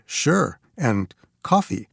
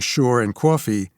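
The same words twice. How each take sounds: First: The words are said in a preppy accent. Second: The words are said in a Queens accent.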